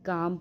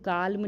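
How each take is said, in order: First: The L sound is silent before the M. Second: The L sound is pronounced before the M. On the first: The speaker calls it right. "काम पढ़ेंगे" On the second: The speaker calls it wrong. "काल्म नहीं पढ़ेंगे"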